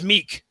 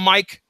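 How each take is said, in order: First: The vowel sounds like ee in meek. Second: The vowel sounds like eye in Mike. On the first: "I'm going to pronounce it as Meek" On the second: "Are you guys going to call him Mike?"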